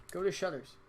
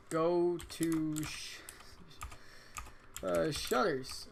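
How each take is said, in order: First: Said in the usual way. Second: Dragging each word slowly; slow typed dictation. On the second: Shown as a demonstration. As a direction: spell out the command slowly.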